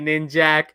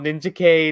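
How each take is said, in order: First: The ending is said as one syllable, 'jak'. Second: The ending is said as the letter K.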